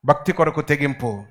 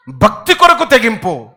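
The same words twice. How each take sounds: First: భక్తి కొరకు తెగింపు softer, lower. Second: భక్తి కొరకు తెగింపు loud, slow. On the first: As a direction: drop to a hush. Repeat soft. (మెల్లగా) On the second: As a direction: declare it. Repeat loud vs soft. (గట్టిగా నెమ్మదిగా) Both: Real, not acted.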